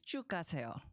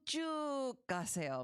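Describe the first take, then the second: First: The first word is said short and quick. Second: The first word is stretched out long. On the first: It is just down the way. "as opposed to" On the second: It is a really long way. "means go a really, really long way"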